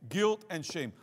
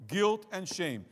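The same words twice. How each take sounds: The two takes are said the same way.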